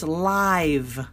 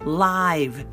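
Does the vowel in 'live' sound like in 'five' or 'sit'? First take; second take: five; five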